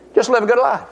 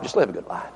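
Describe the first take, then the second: First: Said in the usual way. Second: Much lower and softer, coaxing devil; sly devil whisper. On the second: Retold or imitated. Devil coaxing the listener, low and soft. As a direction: murmur it low like a tempter. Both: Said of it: "The old devil will tell you".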